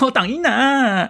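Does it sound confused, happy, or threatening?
happy. It sounds happy and delighted, with a laugh.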